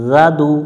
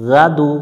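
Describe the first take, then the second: The two takes are said the same way.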